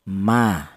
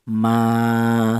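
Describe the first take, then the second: First: The vowel is held for one short beat. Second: The vowel is held for two beats. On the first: "maka dibaca pendek hanya satu harokat" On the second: "maka dipanjangkan dua harokat atau dua ketukan"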